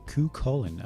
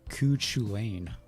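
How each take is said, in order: First: The second part sounds like 'colon'. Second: The second part sounds like 'chu-lain'. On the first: The speaker calls it right. "but it's actually Ku Colon" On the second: The speaker calls it wrong. "I was saying Ku Chulainn"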